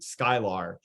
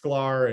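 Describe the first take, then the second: First: An extra vowel sits between the k and l. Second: The k and l join with no vowel between. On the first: The speaker calls it wrong. "people always pronounce it Skylar" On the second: The speaker calls it right. "it's Sklar"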